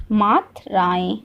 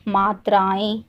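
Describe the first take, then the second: First: मात्राएं drawn out in two slow parts, Matru then राएं; teacher's slow dictation of मात्राएं, pausing mid-word; slow, split word. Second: Said in the usual way. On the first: Shown as a demonstration. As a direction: say मात्राएं slowly, breaking it after Matru. Repeats topic word slowly for learners.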